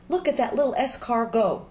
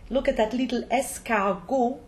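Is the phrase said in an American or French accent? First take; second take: American; French. First: It is said in an American accent. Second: It is said in a French accent. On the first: A snail's little S car is driving along. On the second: The snail is being called an escargot.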